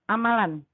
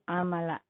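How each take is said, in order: First: The word ends with an n sound. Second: The word ends with an open vowel. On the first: The speaker calls it wrong. "tidak boleh dibaca eh, amalan" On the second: The speaker calls it right. "tapi berhenti amala"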